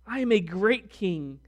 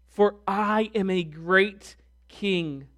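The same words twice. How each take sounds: First: Said in the usual way. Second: Slow, weighty reading; emphatic scripture. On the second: Shown as a demonstration. Preacher quoting God's claim to kingship. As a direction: lean on great king. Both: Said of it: "that word great is used four times".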